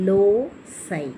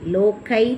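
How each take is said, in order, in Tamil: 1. s ஒலி, பிறகு சொல் eye ஒலியில் முடிகிறது. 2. நடுவில் உள்ள எழுத்து hard k ஒலி. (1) "இதனுடைய ஃபொனட்டிக் ஸ்கிரிப்ட் இப்படி தான் இருக்குது" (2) "லோக்கை சொல்லக்கூடாது"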